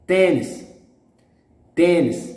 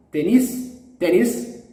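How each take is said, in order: First: Tennis punched on TEN, falling; stress on first syllable. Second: Tennis rising, weight on the last syllable; wrong final stress. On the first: Teacher shows the exception, Tennis stressed on TEN. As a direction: say Tennis as TEN-nis, ending light. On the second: Teacher reads it by the rule, Tennis stressed on NIS. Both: Shown as a demonstration. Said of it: "No, it's an exception".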